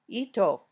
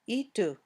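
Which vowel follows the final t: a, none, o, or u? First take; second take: o; u. First: An extra 'o' vowel follows the final t. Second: An extra 'u' vowel follows the final t. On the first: "or ito" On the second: "or itu"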